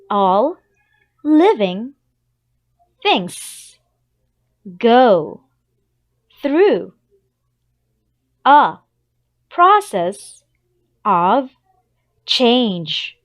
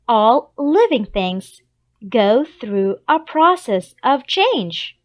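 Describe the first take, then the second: First: It is said slowly, word by word. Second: It is said at a normal speed.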